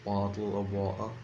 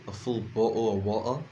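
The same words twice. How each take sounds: First: Said in the usual way. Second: "a full bottle of water" with a dropped British t, "bo'le of wa-tah"; playful British accent imitation; light British accent. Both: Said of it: "as my British friends would say".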